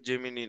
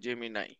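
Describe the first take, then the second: First: The word ends with an 'ee' sound. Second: The word ends with an 'eye' sound. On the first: The speaker calls it wrong. "উচ্চারণটা জেমিনি না" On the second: The speaker calls it right.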